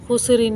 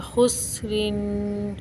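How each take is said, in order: First: खुसरिन quick with सीन jolted; wrong bounced seen. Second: खुसरिन slow with a steady, unbounced सीन; no qalqala on seen. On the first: Teacher shows the wrong खुसरिन, bounced सीन. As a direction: rush खुसरिन and bump the सीन. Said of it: "खुसरिन नहीं पढ़ेंगे". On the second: Teacher shows the right खुसरिन, सीन left still. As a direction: hold सीन smooth, no jolt, in खुसरिन. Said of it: "तो सीन को बिल्कुल नहीं हिलाएंगे". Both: Shown as a demonstration.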